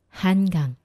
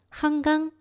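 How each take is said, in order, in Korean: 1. 첫 번째 음절은 n으로 끝나요. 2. 첫 번째 음절은 ng로 끝나요. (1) "혀의 힘은 더 많이 들어가서 좀 불편하지만 훨씬 발음을 정확하게" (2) "첫 번째로 건강 한강은 말하기가 너무 편하고 좋아요"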